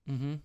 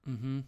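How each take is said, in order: No difference in how they are said.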